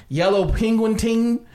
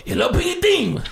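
First: Said in the usual way. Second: High, excitable mock Japanese announcer; Japanese game show host. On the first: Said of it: "but he would go". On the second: Showing the dude from the show, Japanese host voice. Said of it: "like this".

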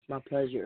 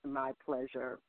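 First: Morning voice. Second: Lower, softer groggy morning voice; imitating morning voice. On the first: Real, not acted. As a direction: sound like you just rolled out of bed. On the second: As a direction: mimic her sleepy low mumble. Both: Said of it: "That's her morning voice".

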